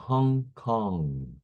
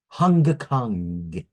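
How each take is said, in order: First: The ng is a pure nasal sound. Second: The ng ends with a hard G sound. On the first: The speaker calls it right. "It's a" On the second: The speaker calls it wrong. "you don't say"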